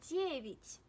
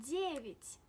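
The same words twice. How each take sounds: The two takes are said the same way.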